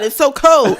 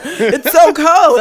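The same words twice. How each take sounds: First: Higher, much louder cry of cold; loud exclaim. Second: Very slow, loud, laughing; laughing slow cry. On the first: James shocked by the icy can, loud cry. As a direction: shout it in disbelief. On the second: James repeating it to friends, slow laughing cry. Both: Retold or imitated. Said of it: "he was like".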